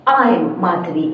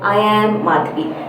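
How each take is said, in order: First: I and am are contracted into one syllable. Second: I and am are said as two words. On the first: The speaker calls it right. "I'm Madhavi instead of" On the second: The speaker calls it wrong. "instead of"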